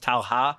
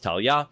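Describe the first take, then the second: First: The middle consonant is an H sound. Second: The middle consonant is a Y sound. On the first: The speaker calls it wrong. "so it's Talha" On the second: The speaker calls it right. "but it's pronounced Talha"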